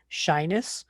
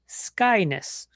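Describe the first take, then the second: First: The word begins with an sh sound. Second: The word begins with an sk sound. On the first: "I hear people say shyness" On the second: "I hear people say skyness"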